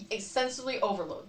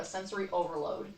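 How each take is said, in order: First: "sensory overload" with "sensory" slurred as "sensovli"; slurred word. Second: "sensory overload" said cleanly, with the r in "sensory"; corrected word. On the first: Misspeaking "sensory overload" before correcting herself, "sensory" slurred. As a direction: garble "sensory overload", the r sound lost in "sensory". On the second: Correcting her slip, saying "sensory overload" clearly. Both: Shown as a demonstration. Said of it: "There we go".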